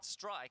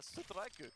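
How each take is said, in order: First: It is said as a plain English word. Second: It is said with Japanese-style added vowels. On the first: "it's just the word strike" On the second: "a more Japanese-sounding word"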